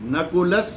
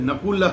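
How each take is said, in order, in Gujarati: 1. આ શબ્દ s અવાજથી પૂરો થાય છે. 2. આ શબ્દ શ્વાસવાળા h અવાજથી પૂરો થાય છે. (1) "વિસર્ગનું ઉચ્ચારણ સ કરી દેવાનું" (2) "નકુલઃ નહીં બોલવાનું"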